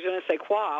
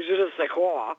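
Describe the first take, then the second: First: "je ne sais quoi" in a New York accent, hard kw in quoi. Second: "je ne sais quoi" with exaggerated nasal French vowels; overdone French pronunciation. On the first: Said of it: "say it with a New York accent". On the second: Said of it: "I either overdo the French pronunciation". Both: Shown as a demonstration.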